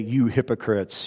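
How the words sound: It is said in a meek, humble voice.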